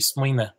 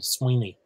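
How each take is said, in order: First: The word ends with a weak schwa vowel. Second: The word ends with an ee vowel sound. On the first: "in Connacht it might be swine with just the kind of schwa at the end" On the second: "in Ulster, it's an E sound"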